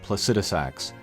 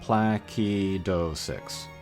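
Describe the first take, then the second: First: The C is soft, sounding like an S. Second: The C is hard, sounding like a K. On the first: "most English speakers pronounce it soft" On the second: "it's a hard C, like a K sound"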